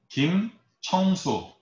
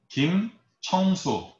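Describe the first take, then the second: First: The middle syllable is said as cheong. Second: The middle syllable is said as cheong.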